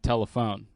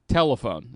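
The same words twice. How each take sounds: First: The stress is on the last syllable. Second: The stress is on the first syllable. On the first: The speaker calls it right. "You're supposed to hit the phone more?" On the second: The speaker calls it wrong. "put the emphasis on the first syllable of words where it doesn't have to be there"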